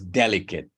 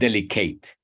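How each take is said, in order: First: The stress falls on the usual syllable. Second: The stress falls on an unusual syllable. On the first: The speaker calls it right. "Is delicate" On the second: The speaker calls it wrong. "not delicate"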